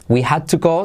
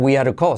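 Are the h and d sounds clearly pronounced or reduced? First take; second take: pronounced; reduced. First: Each word is pronounced fully and separately. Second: The h is dropped and d becomes a soft r.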